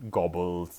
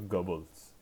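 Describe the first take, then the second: First: The name begins like the English word 'gobble'. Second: The name does not begin like 'gobble'. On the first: The speaker calls it wrong. "it is not Goebbels. he does not gobble his food" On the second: The speaker calls it right. "It's Joseph Goebbels"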